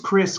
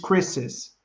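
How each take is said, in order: First: The name ends in a single s sound. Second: The name ends with an added iz syllable. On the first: The speaker calls it wrong. "você não diz Chris car" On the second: The speaker calls it right. "você diz Chris's"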